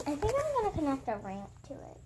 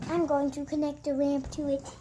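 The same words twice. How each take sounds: First: Quick, tentative musing with a final rise. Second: Firm, even statement of the plan; decided. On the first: Vlogger weighing the next craft step, tentative. Tentative plan, then confirmed aloud. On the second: Vlogger confirming the craft plan to viewers, decided. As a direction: announce it with the decision made. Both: Real, not acted.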